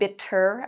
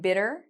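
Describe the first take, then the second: First: The middle consonant is a crisp T sound. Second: The middle consonant is a soft D sound. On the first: "I'm not saying bitter" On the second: "we pronounce this like a D"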